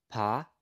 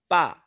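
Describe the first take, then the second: First: Said in the usual way. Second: "pa" with a tense p, higher and louder; strong accent. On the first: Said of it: "here's the difference". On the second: Shown as a demonstration. Teacher showing the difference, "pa" with strong accent. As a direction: hit the p of "pa" hard. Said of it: "add strong accent to it".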